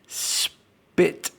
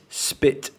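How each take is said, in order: First: The s sound at the start is drawn out. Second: The s sound at the start is short.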